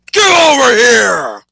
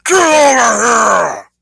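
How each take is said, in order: First: Huge drawn-out roar, much higher; Scorpion voice. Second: Long, slow, roaring battle cry; Scorpion voice. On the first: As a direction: bellow it like the ninja spectre. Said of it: "there's my, uh, Scorpion impression". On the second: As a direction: roar it out, much higher and louder. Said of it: "I'll do it one more time". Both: Acted.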